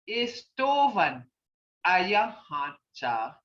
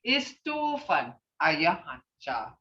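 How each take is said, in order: First: Istovan ayahancha said slowly, pausing between the two words; "Istovan" lifted, then a pause, then "ayahancha" drawn out and falling; slow teaching model. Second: Said in the usual way. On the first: Shown as a demonstration. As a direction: break "Istovan" and "ayahancha" apart and say each slowly, as a teacher does. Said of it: "teacher modelling phrase slowly". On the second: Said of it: "same phrase said joined".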